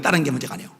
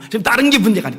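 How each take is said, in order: First: Softer echo. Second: Said in the usual way. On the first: Shown as a demonstration. Preacher repeats point softly.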